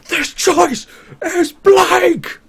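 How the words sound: It is said with the most anger.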